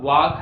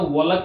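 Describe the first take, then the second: First: The vowel is an open 'aa' sound. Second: An L sound is heard before the final k. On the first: "ना ये वाक है" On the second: "ये ना तो वॉलक है"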